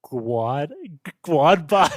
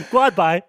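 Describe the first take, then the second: First: "Guad by" said as gwad by, like a mangled goodbye; misread goodbye. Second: "Guad by" loud and high, gwad by; mangled goodbye. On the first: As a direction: sound out "Guad by" wrongly, gwad. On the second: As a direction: shout "Guad by" as gwad, laughing. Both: Retold or imitated. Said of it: "I was like".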